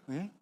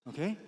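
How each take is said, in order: Both takes have the same delivery.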